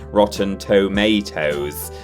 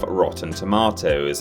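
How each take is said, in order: First: It is said with an American accent. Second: It is said with a British accent. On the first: "rather than Rotten Tomatoes" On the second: "the British pronunciation of Rotten Tomatoes"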